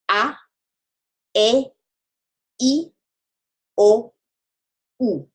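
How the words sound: The vowels are short, pure and cut off. The speaker calls it right. "but rather ... we say them short. we cut them off"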